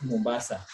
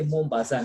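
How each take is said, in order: First: "Mombasa" the everyday East African way; plain local pronunciation of "Mombasa"; local-accent Mombasa. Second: "Mombasa" with a French lilt to the last syllable; French pronunciation of "Mombasa"; French-style Mombasa. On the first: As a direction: say "Mombasa" without French colouring. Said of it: "not Mombasa". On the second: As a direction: say "Mombasa" as a French speaker would. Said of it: "You say Mombasa, not Mombasa". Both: Shown as a demonstration.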